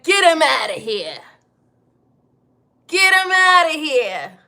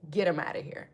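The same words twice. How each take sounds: First: Loud mock old Italian mobster; loud, hammed-up mob boss order. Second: Said in the usual way. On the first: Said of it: "I'ma sound like an old Italian mobster". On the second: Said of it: "I'm just saying".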